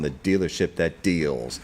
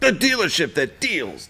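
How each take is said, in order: First: It is said in a flat, plain way. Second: It is said with lively energy and echoes. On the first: The speaker calls it wrong. "can't say it like that" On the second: The speaker calls it right. "a little bit of heart, a little bit of soul"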